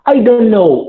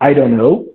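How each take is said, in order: First: Said at normal speed with the t sound kept. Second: Said quickly with the t sound dropped.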